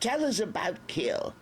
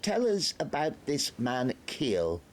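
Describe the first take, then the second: First: Mild shout. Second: Higher, slow pompous officer; probing Major. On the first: The Major loses patience with Nobby, shouting. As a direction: bark the name impatiently. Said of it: "the Major shouted". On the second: The Major questions Nobby, pompous. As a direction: lean in and demand. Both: A narrator's reading.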